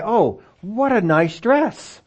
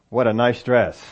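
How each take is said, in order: First: High, slow, admiring rise on dress; sincere compliment. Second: Lower, flat, dismissive fall from What; sarcastic. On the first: Preacher demonstrating a genuine compliment to the congregation, high and slow. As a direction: gush it like you mean it. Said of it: "you don't get all the voice inflection". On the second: Preacher showing the snide version of the same compliment, low and dry. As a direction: say it like you don't mean it. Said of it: "we said the same thing". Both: Shown as a demonstration.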